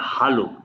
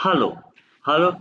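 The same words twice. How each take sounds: First: Said in the usual way. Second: हेलो said as "haalo" with open a; हेलो as German Hallo, short open a. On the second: Shown as a demonstration. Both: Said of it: "It is not hello".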